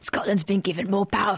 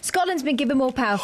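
First: It is read in a put-on imitation voice. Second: It is read in a natural own voice. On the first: It mimics another person's way of speaking. "You do it in my voice" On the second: It is a plain reading with no imitation. "I'll read it properly"

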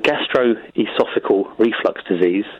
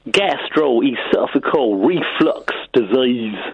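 First: It is spoken in an English accent. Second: It is spoken in a Southern American accent. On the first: "is an English accent" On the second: "If you say it in the Southern American accent, it becomes"

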